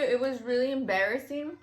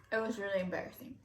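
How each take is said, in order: First: Said in the usual way. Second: "embarrassing" repeated softer and fast, under the breath; a quiet rushed echo of the words; softer, quick repeat. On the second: Real, not acted. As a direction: mutter it again to yourself.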